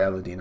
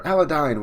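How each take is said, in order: First: "Aladdin" ending like "deen"; preferred pronunciation. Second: "Aladdin" ending like "dine"; alternative pronunciation. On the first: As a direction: say the end of "Aladdin" with an ee vowel. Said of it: "I like that better". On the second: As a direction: say the end of "Aladdin" with a long eye vowel. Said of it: "whatever the, how you pronounce". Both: Shown as a demonstration.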